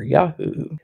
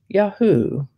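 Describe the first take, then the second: First: Softer "Yahoo", rising at the end; alternative pronunciation of Yahoo. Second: "Yahoo" pitched higher, falling at the end; first pronunciation of Yahoo. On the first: Host recapping the other variant, softer and rising. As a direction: say "Yahoo" softly with a final lift. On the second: Host recapping the word of the day, higher falling variant. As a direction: say "Yahoo" high, then let it drop. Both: Shown as a demonstration. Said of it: "can be pronounced Yahoo or Yahoo".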